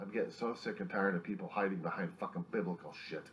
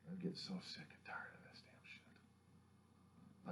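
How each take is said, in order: First: Said in the usual way. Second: Slow, whispered disgust; hushed exhausted complaint; whispered rant. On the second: Real, not acted. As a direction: breathe it out slowly, fed up. Whispered then repeated rant.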